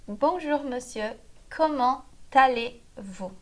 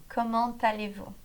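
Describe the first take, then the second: First: "comment allez-vous" slowly, in separate chunks; slow teaching repeat. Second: "Comment allez-vous" joined, the t sounded into "allez"; linked liaison. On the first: Teacher repeating the greeting for learners, slow and broken up. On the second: Teacher showing the liaison in speech, words joined. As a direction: link "Comment allez-vous" as "comman-talé-vou", in one flow. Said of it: "A gente junta o comment com o allez". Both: Shown as a demonstration.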